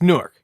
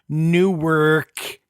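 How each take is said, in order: First: It is said in a relaxed, local way. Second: It is said in a careful, formal way. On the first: The speaker calls it right. "It's it's Newark" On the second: The speaker calls it wrong. "you can't say Newark"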